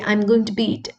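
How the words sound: Bed is said like bid, Australian-style.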